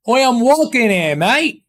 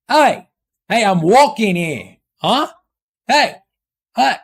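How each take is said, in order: First: Higher-pitched mock British accent. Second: Hammed-up New York accent. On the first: Switching accents for chat, in a mock British accent. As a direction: put on a cheeky British "oi, mate" accent. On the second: Switching accents for chat, in a mock New York accent. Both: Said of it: "I can't switch those accents".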